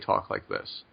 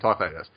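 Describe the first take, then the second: First: It is said quietly in a relaxed voice. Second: It is said loudly with clear enunciation. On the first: This is the speaker's everyday voice. "I normally talk like this" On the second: This is the voice used on the show. "enunciate in like a louder voice"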